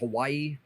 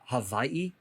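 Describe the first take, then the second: First: The middle consonant is a plain W sound. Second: The middle consonant is a soft V sound. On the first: "I've been saying Hawaii" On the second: "sort of a soft V on it"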